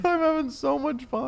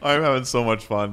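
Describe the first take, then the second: First: Giggling through it, very high; laughing. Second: Loud, high, gleeful cry of fun. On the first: Repeating the Lane line while cracking up. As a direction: laugh out the words in delight. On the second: Playing Lane, the friend who skipped ahead, gleeful and loud. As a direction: belt it out like a kid on a sugar high. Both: Pretend.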